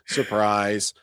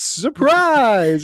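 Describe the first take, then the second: First: The word is said plainly, without special inflection. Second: The word is said with an exaggerated, excited inflection. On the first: "it's not just surprise" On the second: "it's surprise. It's like somebody, you walked into a party and somebody greeted you"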